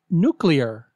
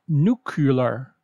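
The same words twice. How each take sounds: First: The word is said like 'nu-clear'. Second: The word is said like 'nu-cu-lar'. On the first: The speaker calls it right. "Say nuclear" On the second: The speaker calls it wrong. "not nuclear"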